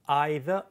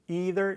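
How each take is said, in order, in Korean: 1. 영국식 억양이에요. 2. 미국식 억양이에요. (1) "영국이나 호주식으로" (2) "미국식으로"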